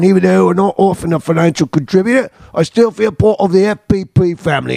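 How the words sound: It is read in a put-on Aussie accent.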